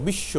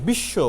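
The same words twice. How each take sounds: First: বিশ্ব said as "bishsho" with a long held শ; বিশ্ব with the ব silent and শ doubled; doubled sh sound. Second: Said in the usual way. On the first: Shown as a demonstration. Teacher showing students the doubled শ in বিশ্ব. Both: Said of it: "উচ্চারণটা কী করছে?".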